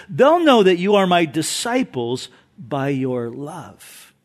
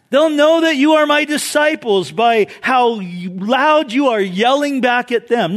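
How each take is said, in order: First: Lower, measured scripture quote; sincere quote. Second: Raised, forceful mock scripture; mock quote. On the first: Retold or imitated. Preacher giving Jesus's real words to congregation, sincere. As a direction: settle gently into the true saying. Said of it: "No, he says". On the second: Preacher misquoting Jesus to make a point, mock forceful. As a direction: push the false quote with mounting energy. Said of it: "No, he didn't say that".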